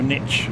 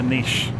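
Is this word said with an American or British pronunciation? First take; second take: American; British. First: The word is said with an American pronunciation. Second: The word is said with a British pronunciation.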